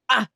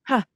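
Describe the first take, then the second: First: The vowel starts with a hard, harsh attack. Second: The vowel starts softly with a slight breath. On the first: The speaker calls it wrong. "that sounds really harsh and hard" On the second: The speaker calls it right. "adding a slight H before my vowel so that my chords are closing in an efficient and safe way"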